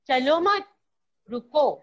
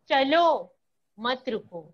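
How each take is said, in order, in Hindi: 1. विराम 'mat' के ठीक बाद है। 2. विराम 'chalo' के ठीक बाद है। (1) "दूसरे वाक्य में मैंने दिया" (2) "पहले मैंने चलो के बाद दिया"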